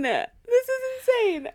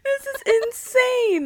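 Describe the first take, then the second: First: Squealed repeat. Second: High, slow, loud squeal; shrieking disbelief. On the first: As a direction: say it again, still squealing. Repeats the reaction. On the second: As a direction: drag it out in disbelief. Reacting to the photo. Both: Real, not acted.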